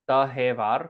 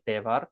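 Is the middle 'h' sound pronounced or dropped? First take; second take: pronounced; dropped. First: The middle h sound is fully pronounced. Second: The middle h sound is dropped entirely.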